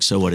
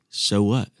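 First: It sounds dismissive, as if nothing matters. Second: It sounds like a sincere, open question.

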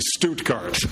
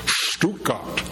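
First: It is said with an English-style pronunciation. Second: It is said with a German-style pronunciation. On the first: This is how English speakers usually say it. "And we say Stuttgart" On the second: This is the local, native way to say it. "I don't know if I can say it correctly. I need Helga's help here"

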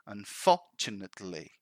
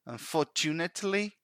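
First: The stress falls on the second syllable. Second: The stress falls on a syllable other than the second. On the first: The speaker calls it right. "The emphasis actually is in the second syllable" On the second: The speaker calls it wrong. "they put the emphasis in the wrong syllable"

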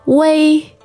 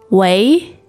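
First: The pitch stays high and level. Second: The pitch rises from mid to high.

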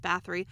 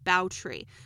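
First: The name is pronounced the English way. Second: The name is pronounced the Hungarian way. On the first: "the English pronunciation of her name is" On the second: "her Hungarian name is"

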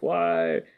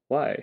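First: It is said in a scary, angry voice. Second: It is said in a flat robotic voice.

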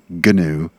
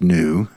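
First: The word begins with a sounded G. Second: The word begins with an N sound. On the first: "as I pronounced it earlier" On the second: "It's actually pronounced new"

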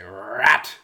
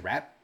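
First: The word is drawn out long. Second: The word is said short and quick.

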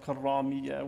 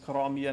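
First: The r sound is doubled and held longer. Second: The r sound is short and single. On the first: The speaker calls it wrong. "not karamiya, with the shadda on the ra" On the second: The speaker calls it right. "the correct term is"

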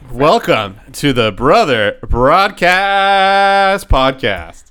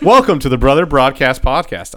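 First: It is said in a put-on news-anchor voice. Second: It is said in a normal speaking voice.

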